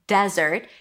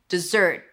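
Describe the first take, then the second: First: The stress falls on the first syllable. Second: The stress falls on the second syllable. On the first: It is a noun: a dry sandy place. "Desert stresses on the first syllable" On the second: It is a verb: to leave something abruptly. "to stop doing something, to leave it abruptly"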